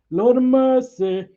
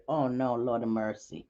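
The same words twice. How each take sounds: First: High, loud and drawn out; exasperated exclamation. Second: Muttered low and soft, to herself; under the breath. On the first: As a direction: cry it out high and slow, exasperated. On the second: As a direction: lower and softer, half to yourself. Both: Real, not acted.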